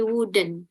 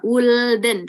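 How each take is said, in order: First: "wouldn't" dibaca "wudn", L tidak dibunyikan; L pada "wouldn't" diam; wouldn't tanpa L. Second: "wouldn't" dengan L dibunyikan; L dalam "wouldn't" terdengar jelas; salah ucap wouldn't. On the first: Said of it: "tapi wouldn't". (ucapan benar "wouldn't" tanpa L) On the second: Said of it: "nggak wouldn't". (contoh salah, "wouldn't" dengan L) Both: Shown as a demonstration.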